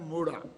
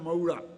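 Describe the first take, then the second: First: The first vowel is a plain short o sound. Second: The first vowel is a gliding au sound. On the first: "एक मात्रा का उच्चारण है मोड़ा" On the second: "दो मात्राओं का उच्चारण है मऊड़ा"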